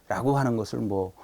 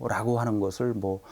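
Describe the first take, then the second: Both takes have the same delivery.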